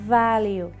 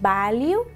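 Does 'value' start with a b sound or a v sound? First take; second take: v sound; b sound. First: The word starts with a buzzing v sound. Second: The word starts with a plain b sound. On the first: The speaker calls it right. "Con esta vibración" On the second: The speaker calls it wrong. "no decís value"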